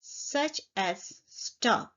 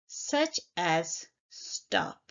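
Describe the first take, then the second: First: Such as stop drawn out at half speed; slow example. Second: Such as stop said slowly and deliberately; teacher slowing down to model such as stop for the class; slow example. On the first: Teacher giving a one syllable example verb, slowly. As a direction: spell out the example slowly for the learners. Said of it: "If it's a one syllable word". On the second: Teacher slowly naming an example verb for students. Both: Shown as a demonstration.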